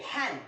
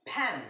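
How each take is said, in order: No difference in how they are said.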